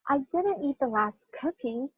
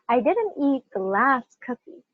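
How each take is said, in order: First: The stress is on a word other than last. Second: The stress is on the word last.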